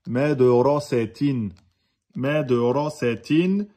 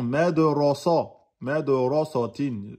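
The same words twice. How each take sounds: First: Mais de ra sa tin with light "sè" after heavy "ra"; thinned sa. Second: Mais de ra sa tin with a dark, heavy "sa"; wrongly emphasised sa. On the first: Teacher modelling the correct reading, thinned sa. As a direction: slowly, switch from dark "ra" to thin "sa" in mais de ra sa tin. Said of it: "il nous a dit que c'était". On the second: Teacher showing what the brain wants, emphatic sa. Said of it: "il va vouloir emphatiser le sa". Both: Shown as a demonstration.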